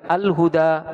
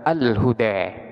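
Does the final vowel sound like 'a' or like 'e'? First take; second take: a; e. First: The final vowel is an open 'a' sound. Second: The final vowel leans toward an 'e' sound. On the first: "Boleh dibaca al-huda" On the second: "boleh pula dibaca al-huda"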